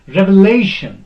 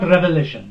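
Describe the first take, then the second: First: The stress is on the syllable la. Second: The stress is not on the syllable la. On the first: The speaker calls it right. "This is lay. This is second from end. Here, stress will be put" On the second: The speaker calls it wrong. "not revelation. That is wrong"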